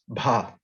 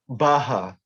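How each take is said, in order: First: It is said as a single syllable. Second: It is split into two syllables. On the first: The speaker calls it right. "still one syllable letters" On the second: The speaker calls it wrong. "they're not baha"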